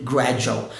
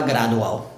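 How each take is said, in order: First: "gradual" with the "du" turned into J; correct "gradual" with J. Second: "gradual" with a plain D, no J; wrong "gradual" with D. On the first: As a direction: say "gradual" as "gra-joo-al". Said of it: "Aqui tem que ser mesmo gradual". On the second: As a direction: say "gradual" as "gra-doo-al". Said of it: "não dá pra falar gradual". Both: Shown as a demonstration.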